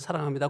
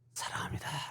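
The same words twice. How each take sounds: First: It is said in a polite, mechanical service tone. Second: It is said warmly, with heartfelt feeling. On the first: It is a routine formula said without real feeling. The speaker calls it wrong. "일일사에서 말하잖아요" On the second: The speaker truly means the love expressed. The speaker calls it right. "진심을 담아서"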